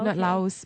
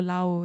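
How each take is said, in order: First: The word ends with a clear S sound. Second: The word ends without any S sound. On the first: This is how outsiders usually say the name. "in Malaysia, we are used to saying as Laos" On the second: This is how local people say the name. "They don't really pronounce the S"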